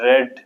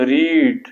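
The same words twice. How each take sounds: First: ریڈ said as English "red" with a short e; past tense read. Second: ریڈ said as English "reed" with a long ee; ریڈ with a long ee vowel, like reed; present tense read. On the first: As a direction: teach ریڈ as "red", said carefully. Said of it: "لیکن بولنے میں اس طرح نہیں ہے". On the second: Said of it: "spelling میں ایسی ہی ہے، لیکن بولنے میں اس طرح نہیں ہے". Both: Shown as a demonstration.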